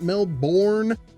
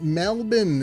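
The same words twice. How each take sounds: First: It is said with an American pronunciation. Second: It is said with an Australian pronunciation. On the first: The speaker calls it wrong. "it's not Melbourne" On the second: The speaker calls it right. "as though I were a native"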